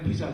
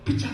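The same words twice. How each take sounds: First: It is said with a plain Korean accent. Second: It is said with a rolled American accent. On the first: "발음이 나쁘다고" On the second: "미국 사람들처럼 혀로 불려야 되겠다 싶어서"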